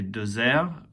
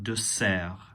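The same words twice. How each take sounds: First: The middle consonant is a buzzing Z sound. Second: The middle consonant is a soft S sound. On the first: The speaker calls it wrong. "if you accidentally say dessert, it'll sound too much like dessert" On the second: The speaker calls it right. "not with a Z sound as in English"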